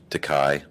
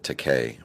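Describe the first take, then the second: First: The last syllable does not rhyme with gay. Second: The last syllable rhymes with gay. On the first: The speaker calls it wrong. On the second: The speaker calls it right.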